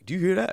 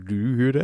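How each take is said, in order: First: High questioning quote; imitating a caller. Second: Mimicked echo, close to own pitch; mock phone echo; echo imitation. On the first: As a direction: ask it high, as the puzzled caller. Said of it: "So you'd be like". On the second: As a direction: parrot the question back as an echo. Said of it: "the echo imitation".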